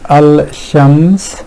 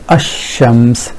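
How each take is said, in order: First: The l is pronounced before the sh. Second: The l is dropped and sh is doubled. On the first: The speaker calls it wrong. "which is a bit hard on the tongue" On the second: The speaker calls it right. "which is much more fluent way of pronouncing"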